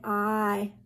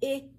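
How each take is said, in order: First: The vowel has its long sound, like its name. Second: The vowel has its short sound, unlike its name. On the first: "the long sound for letter I is I. It says its name" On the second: "The short sound, we lay it flat, it's I"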